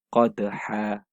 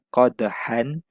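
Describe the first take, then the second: First: The word ends in a lengthened vowel. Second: The word ends with an n sound. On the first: The reciter stops at this word. "kita satukan saja bunyinya ... dan panjangkan dua harakat" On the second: The recitation continues without stopping. "Patutnya bunyinya"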